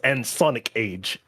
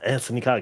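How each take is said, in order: First: The name is broken into three separate chunks. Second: The name flows as two joined words. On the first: The speaker calls it wrong. "someone broke down the A N and then the S O N I K and then the A G E" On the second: The speaker calls it right. "I love how he says he's like Anthony Kage"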